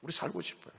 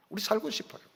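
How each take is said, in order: First: "우리 살고 싶어요" repeated much softer, pleading; softer plea. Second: Said in the usual way. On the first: Acted. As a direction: let "우리 살고 싶어요" drop to a soft plea. Acted prayer, repeated plea.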